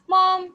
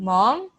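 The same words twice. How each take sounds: First: High, loud excited "Mom"; high excited exclamation. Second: "Mom" swooping up as a question; rising question. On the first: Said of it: "high, excited voice". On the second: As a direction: ask "Mom" with a clear rise, looking for mom. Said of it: "Like a rising question". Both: Shown as a demonstration.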